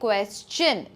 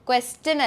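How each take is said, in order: First: The middle consonant is a 'ch' sound. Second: The middle consonant is a plain 't' sound. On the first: The speaker calls it right. "ച് sound ആണ് വരേണ്ടത്" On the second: The speaker calls it wrong. "ട് sound നമ്മൾ പറയുമ്പോൾ വരാൻ chance ഉണ്ട്"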